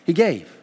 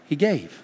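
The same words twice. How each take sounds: First: He gave, gave hit firmly and falling; emphatic gave; stressed gave. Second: He gave said softly, falling; quiet He gave; soft answer. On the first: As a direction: land on gave. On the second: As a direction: let gave drop soft. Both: Shown as a demonstration.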